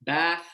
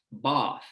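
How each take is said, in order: First: "Bath" with "a" as in cat; own American pronunciation. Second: "both" said as British "bahth"; tongue retracted and low for "both", meaning bath; long back "ah" in "both", as in British bath; British back vowel. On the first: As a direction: say "Bath" the American way, vowel forward. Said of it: "from my pronunciation". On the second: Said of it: "vowel that's produced further back in the mouth". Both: Shown as a demonstration.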